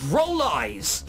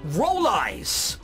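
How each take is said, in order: Both takes have the same delivery.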